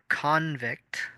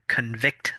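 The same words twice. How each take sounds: First: The stress is on the first syllable. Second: The stress is on the second syllable. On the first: It names a person found guilty. "on the first half for the noun" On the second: It means to find someone guilty. "The stress is on the second half for the verb"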